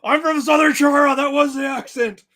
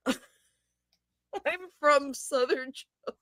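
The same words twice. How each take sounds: First: Loud, higher cartoon Southern accent; hammed-up Southern accent. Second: Slow, drawn-out Southern accent imitation; mock Southern accent. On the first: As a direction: belt it out as a silly Southern accent. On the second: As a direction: stretch it slowly like a lazy Southern drawl. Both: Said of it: "That was a Southern accent".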